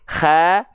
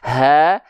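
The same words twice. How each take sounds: First: The h comes with a raspy, snoring friction. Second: The h comes with a plain, ordinary breath. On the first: "jangan sampai ke tenggorokan paling atas, nanti jadi ada ngorok-ngoroknya" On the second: "Jangan sampai terlalu ke bawah, nanti jadi hak besar, nafasnya jadi biasa"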